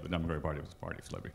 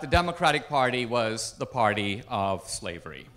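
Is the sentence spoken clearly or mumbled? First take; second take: mumbled; clearly. First: The sentence is mumbled quietly and indistinctly. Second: The sentence is spoken clearly and distinctly.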